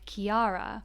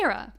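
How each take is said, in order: First: The name is said as Kiara, read from spelling. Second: The name is said as Kira, the native form. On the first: The speaker calls it wrong. "a lot of people would probably read it like" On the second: The speaker calls it right. "but it's"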